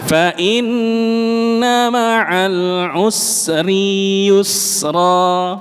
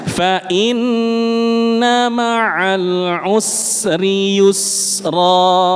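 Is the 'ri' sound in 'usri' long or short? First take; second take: long; short. First: The 'ri' sound in 'usri' is drawn out long. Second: The 'ri' sound in 'usri' is kept short. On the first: The speaker calls it wrong. "Sering terjadi" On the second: The speaker calls it right.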